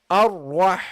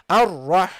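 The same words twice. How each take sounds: The two takes are said the same way.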